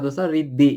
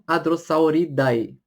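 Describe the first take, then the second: First: The final vowel sounds like 'eh'. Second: The final vowel sounds like 'ai'. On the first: The speaker calls it right. "você fala como se fosse um som de E" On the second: The speaker calls it wrong. "e não"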